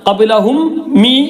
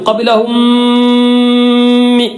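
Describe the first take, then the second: First: The two m sounds are said separately. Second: The two m sounds merge into one nasalized m. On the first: The speaker calls it wrong. "എന്ന് പറയില്ല" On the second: The speaker calls it right. "കൂട്ടി യോജിപ്പിച്ച് മണിച്ചു"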